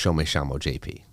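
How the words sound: It is said in Argentinian Spanish, ll sounding like sh. "And in Argentina, it'd be ... double L's and the Y's are pronounced as S H's"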